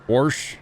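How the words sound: It is said in Missouri dialect pronunciation. "we say things like"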